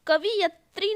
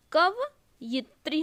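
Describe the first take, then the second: First: कवियत्री mispronounced as "kavi-yatri"; wrong form. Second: कवयित्री slowly split, "kav... yitri"; correct form. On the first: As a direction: put the "i" straight after v in कवियत्री. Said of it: "नहीं होती". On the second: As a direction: pause before "yitri" in कवयित्री. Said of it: "कवयित्री होती है". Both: Shown as a demonstration.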